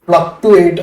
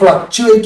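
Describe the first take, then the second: First: The middle consonant is a plain t sound. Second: The middle consonant is a ch sound. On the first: The speaker calls it wrong. "ഫ്ലക്ടുവേറ്റ് അല്ലെങ്കിൽ വേറൊരു രീതിയിൽ അത് പറയരുത്" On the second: The speaker calls it right. "ഫ്ലക്ച്വേറ്റ് എന്ന് പറഞ്ഞ ഒരു വാക്ക്"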